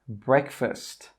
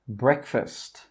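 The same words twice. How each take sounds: The two takes are said the same way.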